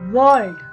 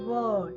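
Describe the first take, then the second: First: The R sound is pronounced clearly. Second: The R sound is silent. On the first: "In America, we used to speak world" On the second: "in British, we used to speak word"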